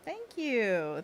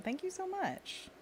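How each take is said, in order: First: Said in the usual way. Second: High, slow squeaky thank-you; high silly voice. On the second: Pretend.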